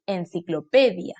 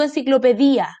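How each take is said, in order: First: Said in the usual way. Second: "enciclopedia" mispronounced as en-ci-clo-pe-DÍ-a; "enciclopedia" with the last I split from A and stressed; wrong stress on final I. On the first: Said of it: "digo en-, enciclopedia". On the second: Shown as a demonstration. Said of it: "Yo no digo enciclopedia".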